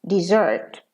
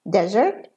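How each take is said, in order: First: "desert" stressed on ZERT, quick "di"; verb stress. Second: "Desert" stressed on DEZ, short ending; noun stress. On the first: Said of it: "and as a verb". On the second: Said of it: "as a noun". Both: Shown as a demonstration.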